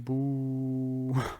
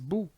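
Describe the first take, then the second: First: The vowel is long. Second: The vowel is short. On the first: "it would be boo because of the waw med" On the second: "Ba dhamma is bu"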